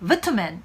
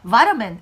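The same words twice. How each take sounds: First: It is said in a British accent. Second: It is said in an American accent. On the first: "영국 발음에서는요" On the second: "이렇게 발음하기보다는"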